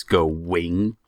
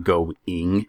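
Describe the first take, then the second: First: "go wing", slow, with a clear W; W before ing. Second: "go ing" with a clean break before ing; no W glide. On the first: Showing the Utah habit, "go wing" with an added W. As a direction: slide a W into "go wing". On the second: Showing the standard way, "go ing" without a W. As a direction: keep "go" and "ing" apart, no W. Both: Shown as a demonstration. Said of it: "We put a W in our ing words".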